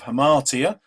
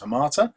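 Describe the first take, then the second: First: The word has four syllables, ending in "tee-uh". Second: The word has three syllables, ending in "tuh". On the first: The speaker calls it right. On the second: The speaker calls it wrong.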